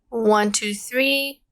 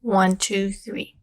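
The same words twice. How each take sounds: First: No hiss, but the voice sounds distorted and robotic. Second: Light background hiss remains, the voice sounds natural. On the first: "my voice is a little bit distorted. I almost sound like a robot" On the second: "the hissing sound is a lot less now"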